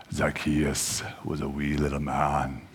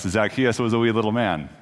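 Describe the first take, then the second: First: Slow, low, softer dramatic reading voice. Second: Said in the usual way. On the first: Shown as a demonstration. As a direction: read it like grand theatre, slowly. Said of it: "I could do a dramatic reading of this". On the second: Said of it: "I could do a dramatic reading".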